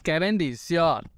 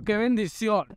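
First: Slow relieved sigh. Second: Bright, higher cry of relief; quick relieved exclaim. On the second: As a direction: blurt out the relief. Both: Real, not acted.

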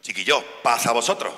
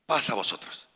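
First: Chiquillos paz a vosotros said louder and firmer; calling the frightened disciples to calm, louder; louder repeat. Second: Said in the usual way. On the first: Retold or imitated. Christ repeating his greeting louder. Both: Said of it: "Tiene que volver a repetirlo".

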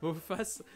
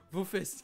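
First: "faces" with an open a vowel, as in French; faces, meaning visages. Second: "fesses" with an open è vowel; fesses, the slip. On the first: YouTuber correcting a slip to viewers, "faces" with open a. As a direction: say "faces" with a clear "a", distinct from fesses. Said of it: "les visages seront installés et non pas vos fesses". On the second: YouTuber showing viewers the wrong word, "fesses" with è. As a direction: say "fesses" with "è" in place of the "a" of faces. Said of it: "et non pas vos fesses". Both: Shown as a demonstration.

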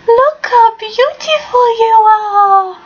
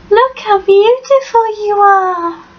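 First: Higher and slower, stretched-out doting coo. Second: Higher doting coo to the pet; fond dog talk. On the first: Owner lifting her dog to the camera, gushing in slow baby talk. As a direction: melt completely as you praise her. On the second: Owner showing off her dog to the camera, cooing fondly. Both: Real, not acted.

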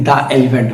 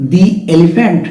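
First: "the elephant" with the as open "daa"; "thuh" alternative. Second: First "the elephant" with the as "dee"; "thee" before vowel. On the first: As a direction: say "the" in "the elephant" as "duh", no ee. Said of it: "দা উচ্চারণ না করে". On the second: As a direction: say "the" in "the elephant" to rhyme with see. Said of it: "এ sound যেহেতু". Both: Shown as a demonstration.

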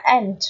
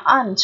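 First: "aunt" with an open front vowel, like "ant". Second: "aunt" with a long back "ah" vowel. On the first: Teacher giving the second accepted reading, front vowel in "aunt". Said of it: "âm E". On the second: Teacher giving the first accepted reading, long A in "aunt". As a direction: say "aunt" like "ahnt". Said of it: "Alpha là âm A dài". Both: Shown as a demonstration.

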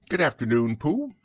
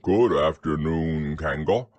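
First: High, lilting motherly greeting; higher-pitched hello with a rising end; Kanga. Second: Low-pitched bear greeting; deep, polite bear hello; Pooh. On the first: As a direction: answer politely, swooping up high on the name. Kanga answers Pooh in character. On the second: Pooh greets Kanga in character. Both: Acted.

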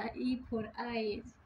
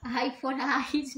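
First: "E for eyes" very slow, the letter "E" stressed with a falling tune; the corrected version. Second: "I for eyes" said quickly, with "I" as the letter name; the wrong version. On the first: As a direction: teach it slowly, leaning on "E" in "E for eyes". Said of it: "नहीं बेटा". (सही "E for eyes", बहुत धीरे, "E" पर ज़ोर) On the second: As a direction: repeat the child's mistake "I for eyes" at normal pace. (गलत वाला "I for eyes", सामान्य गति से) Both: Shown as a demonstration.

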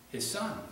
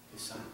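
First: Said in the usual way. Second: His son. repeated much softer, almost breathed; soft echo. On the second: Shown as a demonstration. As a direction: let His son. fall to a hush. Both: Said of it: "repeated softer".

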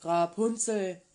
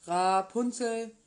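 First: Louder, slow call up the tower. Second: Calling again. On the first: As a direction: call her name up to the window. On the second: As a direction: call her name once more, drawn out. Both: Acted. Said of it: "kam und rief".

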